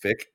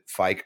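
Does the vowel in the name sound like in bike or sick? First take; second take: sick; bike. First: The vowel sounds like the one in 'sick'. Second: The vowel sounds like the one in 'bike'. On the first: The speaker calls it right. "I know it's Fick" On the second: The speaker calls it wrong. "I pronounced it Fike earlier"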